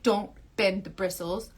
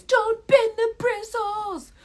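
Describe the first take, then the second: First: Said in the usual way. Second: High, slow, drawn-out haunting call; nagging inner voice. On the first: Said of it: "then you'll hear my voice". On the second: Acted. Her voice echoing in the viewer's head, nagging. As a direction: sing it out high, stretching every word. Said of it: "you'll hear my voice".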